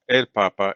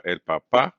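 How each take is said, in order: First: "papa" stressed on the first pa; stress on first syllable. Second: "papá" stressed on the final pá; stress on last syllable. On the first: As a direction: say "el papa" as PA-pa, falling after. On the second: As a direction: say "el papá" as pa-PÁ, lifting at the end. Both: Shown as a demonstration. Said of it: "a note on pronunciation".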